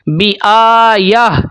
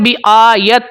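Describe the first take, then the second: First: The word ends with a soft h sound. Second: The word ends with a stopped t sound. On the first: The speaker calls it right. "ता की जगह पर आपने हा पढ़नी है" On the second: The speaker calls it wrong. "अक्सर लोग पढ़ते हैं बिआयत"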